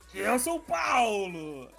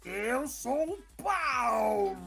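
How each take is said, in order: First: It is said at normal speed. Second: It is said very slowly.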